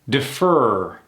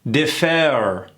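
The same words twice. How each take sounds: First: The vowel is dropped, leaving a reduced sound. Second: The vowel is fully pronounced and clearly heard. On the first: The speaker calls it right. "Those E's are gone" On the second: The speaker calls it wrong. "Sounds pretty odd, right?"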